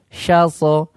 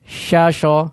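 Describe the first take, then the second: First: The second syllable begins with an s sound. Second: The second syllable begins with a sh sound. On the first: The speaker calls it right. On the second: The speaker calls it wrong.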